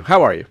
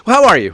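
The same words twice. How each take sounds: First: Said in the usual way. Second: High, loud, exaggerated greeting; excited greeting. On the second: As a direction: belt it out like an eager host. Host greets guest repeatedly.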